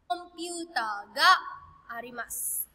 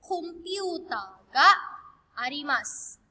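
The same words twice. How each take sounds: First: Said in the usual way. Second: "Computer ga arimasu" said slowly with "ga" drawn out; slow model sentence. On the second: Shown as a demonstration. Teacher showing students the Japanese, slow and deliberate. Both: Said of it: "That would be".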